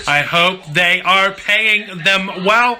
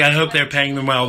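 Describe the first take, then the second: First: "I hope they are paying them well" slow and higher, word by word; emphatic repeat. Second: Said in the usual way. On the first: Real, not acted.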